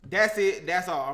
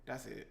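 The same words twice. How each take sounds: First: Loud, firm declaration. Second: Very soft, low aside; quiet. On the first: Cook refuses to add more tahini, firmly. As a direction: put your foot down, louder. Repeats it firmly, stops adding. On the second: Cook adding a little tahini, quietly to self. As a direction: say it low, to yourself. First take, muttered to self. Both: Real, not acted.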